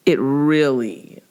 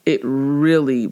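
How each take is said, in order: Both takes have the same delivery.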